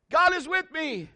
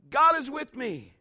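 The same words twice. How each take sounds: First: High declaring call; high, projected shout of faith. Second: High, drawn-out repeat; slower high returning call; echo calling back. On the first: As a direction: holler it out to the mountain. Dad demonstrates shouting to echo. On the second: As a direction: imitate the echo answering. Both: Acted.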